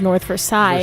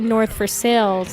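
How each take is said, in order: First: The name is said the non-local, outsider way. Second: The name is said the local Pittsburgh way. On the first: This is how people from elsewhere say it. "instead of North Versailles" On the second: This is how people from the area say it. "we go to North Versailles"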